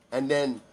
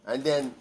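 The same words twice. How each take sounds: The two takes are said the same way.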